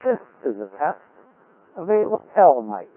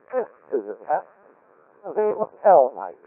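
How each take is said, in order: Both takes have the same delivery.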